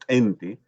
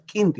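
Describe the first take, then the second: First: It starts with a consonant further back. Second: It starts with a plain k sound. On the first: The speaker calls it right. "esta posvolar que es más atrás que la K" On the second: The speaker calls it wrong. "no puedo leer porque sería con la K"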